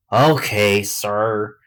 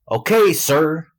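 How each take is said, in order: First: Resigned sigh at usual pitch. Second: High, loud "Okay, sir"; raised reply. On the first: Son giving in to his father, sighing. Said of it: "Bradley sighed". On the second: Son answering his father, high and loud. First take of repeated line. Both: A narrator's reading.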